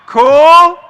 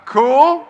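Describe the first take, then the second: First: Higher, much louder crowd check; loud hype call. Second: Said in the usual way. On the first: Real, not acted. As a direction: bellow it out to the back row.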